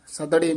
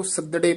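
First: ਸੱਦੜੇ slackened, with a short vowel between ਦ and ੜੇ; loose wrong pronunciation. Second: ਸੱਦੜੇ with a doubled ਦ straight into ੜੇ; tightened pronunciation. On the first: Teacher warning against it, slack ਸੱਦੜੇ. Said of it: "ਨਹੀਂ ਕਹਿਣਾ ਹੈ". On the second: Teacher telling students to tighten it, firm ਸੱਦੜੇ. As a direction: press the ਦ in ਸੱਦੜੇ, no vowel after it. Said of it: "ਪਦ ਕੱਸ ਕੇ ਉਚਾਰਨ ਕਰਨਾ ਹੈ". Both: Shown as a demonstration.

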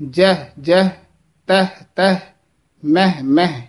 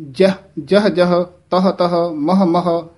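First: ਜਹ ਜਹ as "jeh jeh"; fronted e in ਤਹ and ਮਹ; -eh vowel. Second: ਜਹ ਜਹ as "jaha jaha"; -ah vowel. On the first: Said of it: "ਇਹ ਸ਼ੁੱਧ ਉਚਾਰਨ ਹੈ". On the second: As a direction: neutral a in ਤਹ and ਮਹ. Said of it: "ਇਸ ਤਰ੍ਹਾਂ ਉਚਾਰਨ ਨਹੀਂ ਕਰਨਾ". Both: Shown as a demonstration.

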